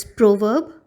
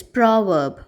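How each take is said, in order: First: "proverb" with an O sound and the R left silent; British pronunciation. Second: "proverb" with an open O and the R clearly sounded; American pronunciation. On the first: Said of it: "the British pronunciation which we follow is proverb". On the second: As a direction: say "proverb" American style, R heard. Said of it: "the American pronunciation is proverb". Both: Shown as a demonstration.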